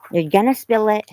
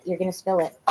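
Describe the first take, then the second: First: Louder, higher warning to the dog. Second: Said in the usual way. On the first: Real, not acted. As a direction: raise the voice to warn the dog. Warning the dog with food bowl.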